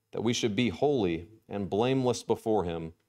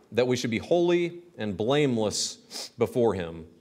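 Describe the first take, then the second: The two takes are said the same way.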